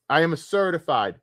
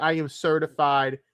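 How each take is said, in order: First: "am" in "I am a certified" pressed hard with a falling tune; stress on AM. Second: The word "I" in "I am certified" pushed up front and stressed. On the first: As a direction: lean on the word am, higher pitch. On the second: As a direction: open by punching the word I. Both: Shown as a demonstration. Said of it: "See that?".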